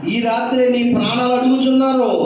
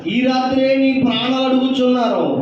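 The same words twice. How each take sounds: Both takes have the same delivery.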